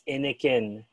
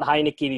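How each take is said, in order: First: It is said with a French pronunciation. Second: It is said with an English pronunciation. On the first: The speaker calls it right. "there's a French pronunciation for it" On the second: The speaker calls it wrong. "It's not Heineken"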